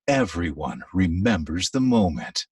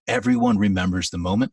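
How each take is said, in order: First: It is said slowly and warmly. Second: It is said quickly and flatly.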